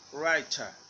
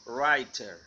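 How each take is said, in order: First: The final r is not pronounced. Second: The final r is clearly pronounced. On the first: "British writer" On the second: "American writer"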